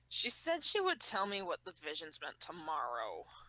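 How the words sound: It is read in a sexy grumbling voice.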